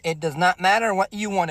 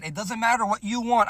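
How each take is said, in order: First: "does not matter" spelled out word by word; emphatic repeat. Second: Said in the usual way. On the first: Real, not acted. Guy advising fellas on dinner choice, "not" stressed.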